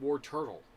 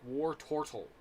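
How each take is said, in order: First: The middle syllable sounds like 'turt'. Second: The middle syllable sounds like 'tort'. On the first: "But I'm used to pronouncing it Warturtle" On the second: "If you pronounce it correctly, it's like Wartortle"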